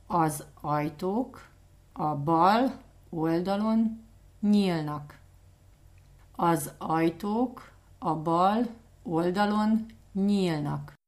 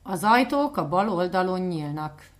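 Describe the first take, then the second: First: Az ajtók a bal oldalon nyílnak spoken slowly in chunks; slow and clear. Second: Said in the usual way. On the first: Shown as a demonstration. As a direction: break it into slow chunks for learners. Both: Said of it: "Can you say that again".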